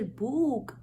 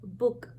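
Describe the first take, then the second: First: The vowel is long and strong. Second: The vowel is short and soft. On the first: The speaker calls it wrong. "we don't say book" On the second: The speaker calls it right. "it's book. So the sound is very soft"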